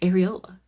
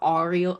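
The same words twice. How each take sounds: First: The word is said in a plain way. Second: The word is said with an odd accent. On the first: The speaker calls it right. "just say it, it's areola" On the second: The speaker calls it wrong. "was said with like an accent. It sounded like areola"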